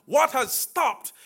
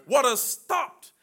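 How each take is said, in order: Both takes have the same delivery.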